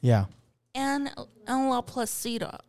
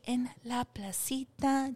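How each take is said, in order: First: The name is said with English pronunciation. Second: The name is said with Spanish pronunciation. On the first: The voice assistant will understand it. The speaker calls it right. "make sure that what you say is" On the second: The voice assistant will not understand it. The speaker calls it wrong. "don't say En La Placita. Don't say that because she does not speak Espanol"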